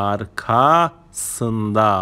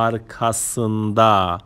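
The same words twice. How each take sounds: First: "arkasında" in two slow parts, arka... sında; split for learners. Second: Said in the usual way. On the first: Shown as a demonstration. Teacher showing learners the word for behind, "arkasında" split after arka.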